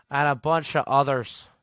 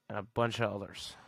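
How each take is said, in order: First: Mock Scottish accent, louder; a playful Scottish accent on "And a bunch of others". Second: Said in the usual way. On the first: Shown as a demonstration. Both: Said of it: "I love that accent".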